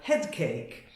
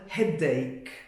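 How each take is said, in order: First: A k sound is added before ache, like cake. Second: Head and ache are said with no k sound between. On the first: The speaker calls it wrong. "confuse it and add a C, and then it sounds very funny" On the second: The speaker calls it right. "You must be careful to keep the pronunciation separate"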